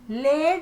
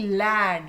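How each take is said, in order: First: The vowel sounds like the one in 'bed'. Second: The vowel sounds like the one in 'bad'. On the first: The speaker calls it wrong. "लेड नहीं" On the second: The speaker calls it right.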